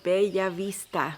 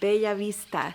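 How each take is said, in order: First: The double L is a different, non-L sound. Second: The same.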